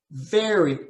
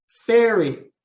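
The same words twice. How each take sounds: First: "very" opening on a buzzing v. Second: "Ferry" opening on a clear f with the lip on the teeth. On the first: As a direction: contrast "very" with ferry. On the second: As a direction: contrast "Ferry" with very. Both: Shown as a demonstration. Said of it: "minimal pairs drill".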